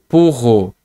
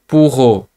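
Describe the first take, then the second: Both takes have the same delivery.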